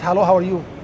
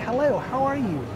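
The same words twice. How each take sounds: First: It is said flatly, with little intonation. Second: It is said with lively, native-like intonation. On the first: The words are only repeated mechanically. The speaker calls it wrong. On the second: The speaker copies a native speaker's delivery. The speaker calls it right. "You must imitate"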